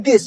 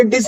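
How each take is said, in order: First: "दिस" with soft dental th; tongue on teeth to start "दिस"; correct TH. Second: "डिस" with a hard retroflex D; wrong D sound. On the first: Teacher modelling "this", soft dental "दिस". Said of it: "इसको बोलते हैं दिस". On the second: Teacher showing the mistake, hard-D "डिस". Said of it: "ये डिस नहीं बोला जाता". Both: Shown as a demonstration.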